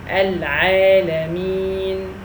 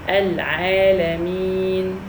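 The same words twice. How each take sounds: First: The word ends on the consonant n. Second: The word ends on the consonant n.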